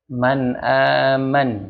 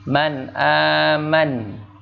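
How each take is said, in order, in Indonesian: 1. Kata terakhir berakhir dengan konsonan. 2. Kata terakhir berakhir dengan konsonan.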